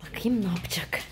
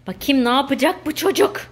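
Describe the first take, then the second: First: Soft unvoiced whisper to herself. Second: Said in the usual way. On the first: Real, not acted. Mother whispering while watching her son. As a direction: whisper as if not to be overheard.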